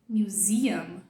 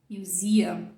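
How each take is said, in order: Both takes have the same delivery.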